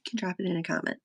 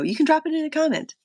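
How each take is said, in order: First: Said in the usual way. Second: High, fast, bright sing-song; chirpy call-out. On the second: Pretend. Streamer urging live viewers to comment, high and quick. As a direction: pitch it up and rush it like a cheerful plug.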